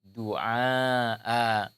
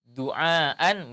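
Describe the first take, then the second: First: The word ends with a long a vowel. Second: The word ends with an n sound. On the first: The reading stops at this word. "menjadi alif" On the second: The reading continues past this word. "suara tanwin"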